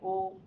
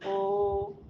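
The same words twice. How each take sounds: First: The vowel is held for one short beat. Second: The vowel is held for two beats. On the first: "एक ताल में बोलेंगे" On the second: "दो ताल में बोलेंगे"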